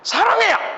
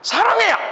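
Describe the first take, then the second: First: It sounds irritated and angry. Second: It sounds irritated and angry.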